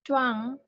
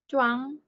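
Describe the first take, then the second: No difference in how they are said.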